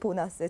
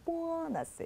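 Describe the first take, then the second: First: It starts with a plain, lax b sound. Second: It starts with a tense, unaspirated pp sound. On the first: This is the English-style pronunciation. "영어는 보너스" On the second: This is the Chinese-style pronunciation. "중국어는 보너스"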